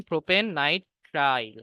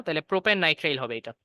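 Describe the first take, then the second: First: propane nitrile said slowly, each word drawn out; slow, spelled-out name. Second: Said in the usual way. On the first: Shown as a demonstration. Teacher slowly spells out the name for students. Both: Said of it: "তিন carbon মানে propane".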